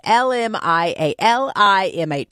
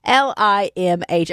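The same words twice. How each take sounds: First: "L M I A L I M H" with extra jumbled letters; wrong letters. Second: "L I M H" spelt cleanly, four letters; corrected letters. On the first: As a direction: spell "L M I A L I M H" as a muddled slip. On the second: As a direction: say "L I M H" letter by letter, fixed. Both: Real, not acted. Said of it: "Sorry, I said it wrong".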